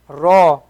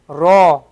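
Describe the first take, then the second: No difference in how they are said.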